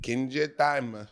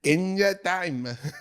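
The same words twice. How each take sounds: First: It is said in a plain normal voice. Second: It is said in a put-on anime-girl voice.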